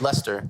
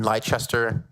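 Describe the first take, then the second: First: The name is said in the normal way. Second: The name is said in an unusual way. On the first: The speaker calls it right. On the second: The speaker calls it wrong.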